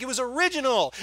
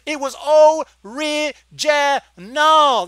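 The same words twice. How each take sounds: First: Said in the usual way. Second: ORIGINAL stretched syllable by syllable, high and loud; drawn-out emphasis. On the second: Real, not acted. Exasperated reviewer telling filmmakers it was original, "original" drawn out slowly. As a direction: hammer each slow syllable of "original".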